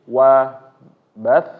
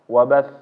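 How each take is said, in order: First: The final sound is pressed and raised. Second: It is said plainly, with no pressed sound. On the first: The final letter is doubled. "ditekan sedikit yang menyebabkan suara ini meninggi" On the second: The final letter has no doubling mark. "seperti biasa"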